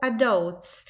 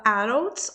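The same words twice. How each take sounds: First: "adults" said with a full hard D; "adults" with a true D, not tapped. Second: "adults" said "arults", with a tapped R; "adults" with a quick tap replacing the D. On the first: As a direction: say "adults" as "a-dolts", D fully pronounced. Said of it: "fala tanto D com som de D". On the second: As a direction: say "adults" with the D flapped like a Portuguese single R. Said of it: "ou D com som de R". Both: Shown as a demonstration.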